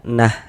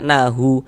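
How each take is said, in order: First: The word ends on a silent h consonant. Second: The word ends with an added u vowel. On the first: The speaker calls it right. "hurufnya kita matikan. Sehingga kita baca nah seperti itu" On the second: The speaker calls it wrong. "Jangan dibaca nahu baru berhenti"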